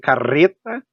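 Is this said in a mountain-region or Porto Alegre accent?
mountain-region. It is said in a mountain-region accent. "mais para o lado da serra"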